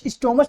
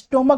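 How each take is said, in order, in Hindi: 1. यह शब्द 'ch' ध्वनि से खत्म होता है। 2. यह शब्द 'k' ध्वनि से खत्म होता है। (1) "स्टोमच नहीं बोलते हैं" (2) "स्टोमक बोलते हैं"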